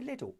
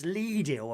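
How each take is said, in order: First: The first vowel is a short 'i' sound. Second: The first vowel is a long 'ee' sound. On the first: "no, I will say little" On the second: "Lee is Lidl apparently"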